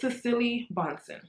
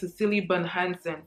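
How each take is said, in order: First: The surname is said with two syllables. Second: The surname is said with three syllables. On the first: The speaker calls it right. "but it's Cecily Bonson" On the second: The speaker calls it wrong. "I was saying Cecily Bun Hansen for the longest"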